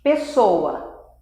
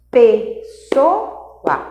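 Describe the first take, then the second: First: Said in the usual way. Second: "pessoa" in three separate beats, clear pauses; sílaba por sílaba. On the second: Shown as a demonstration. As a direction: break "pessoa" into syllables, one puff each. ("pessoa" silabada, com pausas claras) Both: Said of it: "Então, três sílabas".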